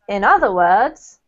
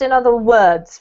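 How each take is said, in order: First: The word 'other' carries the main stress. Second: The word 'other' is not given the main stress. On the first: The speaker calls it right. "we normally put the emphasis on the word other" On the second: The speaker calls it wrong. "you pronounced in other words, right?"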